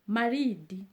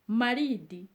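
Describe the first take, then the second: The two takes are said the same way.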